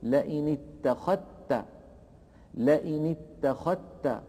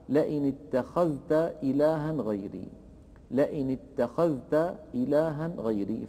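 First: "اتخذت" with ذ merged into a doubled ت; slow "اتخذت", no trace of ذ; assimilated dhal. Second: "اتخذت" with the ذ sounded before ت; unmerged dhal. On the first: ("اتخذت" بإدغام الذال في التاء) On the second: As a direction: read "اتخذت" with ذ and ت distinct. ("اتخذت" بإظهار الذال) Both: Shown as a demonstration. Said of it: "يدغم الذال في التاء فيقول".

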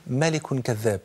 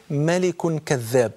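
First: Said in the usual way. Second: ملك كذاب drawn out very slowly, ملك leaned on; slow emphasis. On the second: Shown as a demonstration. Preacher repeating the answer to the crowd, very slow and heavy. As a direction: stretch out ملك كذاب to drive it home.

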